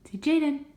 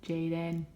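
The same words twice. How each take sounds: First: High coaxing. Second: Said in the usual way. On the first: Shown as a demonstration. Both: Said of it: "We say Jaden".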